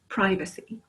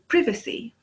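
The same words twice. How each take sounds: First: It is said with an American pronunciation. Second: It is said with a British pronunciation. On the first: "but here it's" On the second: "In England, we would say"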